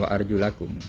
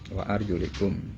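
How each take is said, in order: First: The vowel before kum is a. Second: The vowel before kum is i. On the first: The feet must be washed. The speaker calls it wrong. "bukan wa'ar julakum" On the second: The feet are to be wiped. The speaker calls it right. "dibaca kasroh"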